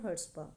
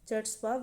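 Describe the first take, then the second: First: The word begins with the C silent. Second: The word begins with a sounded ch. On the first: This is how the word is actually said. "सी इसमें silent रहता है" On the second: It is a spelling aid, not the real pronunciation. "अगर spelling याद रखने के लिए आप बोल सकते हो चट्सपा"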